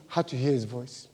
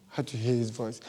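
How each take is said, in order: Both takes have the same delivery.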